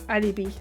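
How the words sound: The word is said with a French pronunciation. "In French, it's the exact same word, but we say it's alibi"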